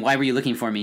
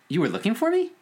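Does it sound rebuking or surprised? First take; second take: rebuking; surprised. First: It sounds like a rebuke. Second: It sounds surprised.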